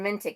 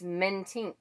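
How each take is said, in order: First: The name ends with a plain k sound. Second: The name ends with an nk sound. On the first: The speaker calls it wrong. "it's not even Mentic" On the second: The speaker calls it right. "it's Mentink"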